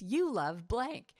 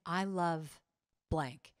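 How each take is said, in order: First: Said back slowly, rising at the end; a partner slowly mirroring the line back; slow echoing repeat. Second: Said in the usual way. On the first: Shown as a demonstration. Partner in the exercise slowly repeats it back, rising. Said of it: "And the person repeats". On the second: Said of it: "you just keep saying".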